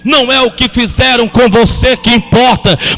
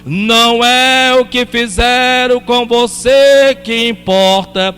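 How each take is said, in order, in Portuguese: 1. A frase é falada em ritmo normal. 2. A frase é falada devagar e de propósito.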